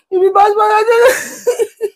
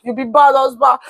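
First: High, slow, half-laughing fake sob; mock weeping at husband, laughing through it; fake crying wail. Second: Said in the usual way. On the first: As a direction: drag it out in a hammed-up cry.

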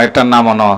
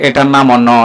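No difference in how they are said.

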